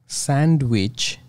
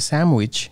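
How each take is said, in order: First: The n is kept as n, said slowly. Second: The n becomes an m, said smoothly. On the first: The speaker calls it wrong. "the word sand actually slows me down because I'm not transforming the and part" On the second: The speaker calls it right. "you can see my speed gets better"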